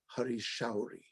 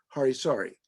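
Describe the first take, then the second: First: The second word sounds like 'shauri'. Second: The second word sounds like 'sari'. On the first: The speaker calls it right. "the proper pronunciation is" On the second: The speaker calls it wrong. "everyone mispronounces his name as"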